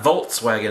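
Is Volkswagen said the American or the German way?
American. It is said with an American pronunciation. The speaker calls it wrong. "It's not Volkswagen"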